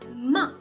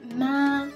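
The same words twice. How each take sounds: First: It is said in a tone other than first. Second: It is said in the first tone. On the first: It means to scold or insult. "la prononciation est différente" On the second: It means mother. "ça a le premier ton"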